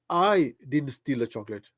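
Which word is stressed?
I. The stress is on the word I.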